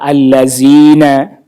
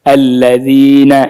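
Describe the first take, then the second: First: The middle consonant is a plain z sound. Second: The middle consonant is a light th-like sound. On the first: The speaker calls it wrong. "huruf zalnya jadi zal" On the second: The speaker calls it right.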